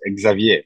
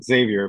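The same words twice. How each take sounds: First: The name is said with French pronunciation. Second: The name is said with English pronunciation. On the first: "but in in in French, for example, is Xavier" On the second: "in English is Xavier"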